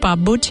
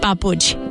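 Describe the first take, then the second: First: The middle consonant is a voiced B sound. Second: The middle consonant is a voiceless P sound. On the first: This is how speakers of another language say it. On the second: This is how the speaker's own language says it.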